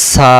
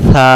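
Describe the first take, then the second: First: সা with a sharp hissed s; wrong sin sound. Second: Airy th opening on সা; light tongue-tip air. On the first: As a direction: say সা like "saa", s as in "see". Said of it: "তখন সিন অক্ষর উচ্চারণ হবে". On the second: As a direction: say সা like "thaa", th as in "think". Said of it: "জিহ্বাটার আগা থেকে হালকা বাতাস বেরোবে". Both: Shown as a demonstration.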